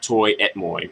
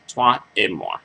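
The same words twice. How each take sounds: First: It is pronounced with English-style sounds. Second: It is pronounced with French-style sounds. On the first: The speaker calls it wrong. "it's not Toi et Moi" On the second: The speaker calls it right. "like French speakers do"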